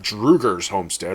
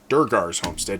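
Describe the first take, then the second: First: The name begins with a 'dru' sound. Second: The name begins with a 'dur' sound. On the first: The speaker calls it wrong. "not Drugar's homestead, or whatever you said. You said it wrong" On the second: The speaker calls it right. "Durgar's homestead, not"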